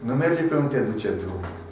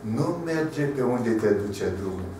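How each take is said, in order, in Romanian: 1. Fraza este rostită într-un ritm normal. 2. Fraza este rostită mai lent.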